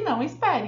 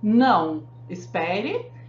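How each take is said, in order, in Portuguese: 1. Não há pausa depois de 'não'. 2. Há uma pausa depois de 'não'. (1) "E no segundo, não é para esperar" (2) "No primeiro, não espere, é para esperar"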